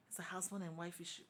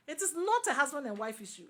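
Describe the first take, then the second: First: Said in the usual way. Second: "not" punched high and loud; emphatic stress on NOT. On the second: Real, not acted. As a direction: hit "not" hard, higher and louder. Rebuts the view just stated.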